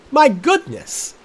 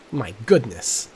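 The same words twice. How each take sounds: First: "My goodness!" cried high, loud and slow; "My goodness!" stretched in hammed-up shock; mock outrage. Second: Said in the usual way. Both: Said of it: "repeated with rising outrage".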